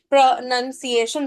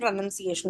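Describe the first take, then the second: First: It is said slowly, broken into syllables. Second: It is said smoothly at normal speed. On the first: "Only one time by going slow" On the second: "then pronunciation in one go"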